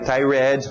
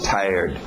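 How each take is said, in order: First: The ending is said as an extra syllable. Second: The word ends with just a D sound. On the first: The speaker calls it wrong. "Não vai tired" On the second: The speaker calls it right. "Só um D no final"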